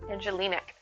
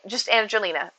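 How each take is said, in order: First: The name ends with an added k sound. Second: The name ends with a plain vowel sound. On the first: The speaker calls it wrong. "Do you say the C on the end?" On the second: The speaker calls it right. "the C is for your last name"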